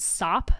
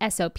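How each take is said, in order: First: It is pronounced as a single one-syllable word. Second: It is spelled out as three separate letters.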